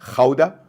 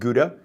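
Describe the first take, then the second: First: The name has the local Dutch pronunciation. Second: The name has the familiar English pronunciation. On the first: The speaker calls it right. "Gouda is how you pronounce it" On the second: The speaker calls it wrong. "you don't pronounce it Gouda"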